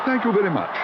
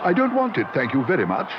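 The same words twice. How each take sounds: First: Much higher, courteous thanks; polite. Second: High, flustered refusal; alarmed cry. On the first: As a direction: thank him nicely. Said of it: "raising his hat politely". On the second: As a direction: push it away in panic. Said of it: "he cried". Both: A narrator's reading.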